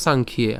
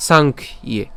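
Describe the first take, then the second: First: "সাংখ্যে" as one unbroken word; joined up. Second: "সাংখ্যে" split as "সাংখ", gap, "ইয়ে"; said separately. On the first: Teacher showing the full word, "সাংখ্যে" said in one go. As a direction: run "সাংখ্যে" together without a gap. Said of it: "একসাথে উচ্চারণ করবো". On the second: Teacher taking the word apart, "সাংখ্যে" in separate pieces. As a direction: break "সাংখ্যে" into two parts. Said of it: "আর আলাদা উচ্চারণ করলে". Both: Shown as a demonstration.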